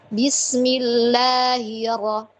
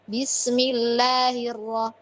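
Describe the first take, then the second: First: The h sound in 'lahi' is weak or dropped. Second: The h sound in 'lahi' is clearly pronounced. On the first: The speaker calls it wrong. "Jadi enggak" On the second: The speaker calls it right. "Hi-nya jelas"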